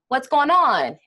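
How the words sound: The pitch rises at the end of the question. "people would rise up at the end of that phrase"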